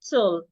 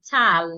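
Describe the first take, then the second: First: The syllable has a reduced, weak vowel. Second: The syllable has a full, clear A vowel. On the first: The speaker calls it right. "so it becomes t, l, tul" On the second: The speaker calls it wrong. "It wouldn't be t, al, tal, no"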